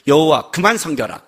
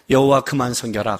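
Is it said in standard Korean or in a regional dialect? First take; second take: dialect; standard. First: It is said with a regional dialect accent. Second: It is said in standard Korean.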